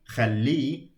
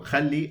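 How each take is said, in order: First: The stress is on the lengthened last syllable. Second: The stress is on the first syllable. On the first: It is a command to allow him. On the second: It is a command to allow.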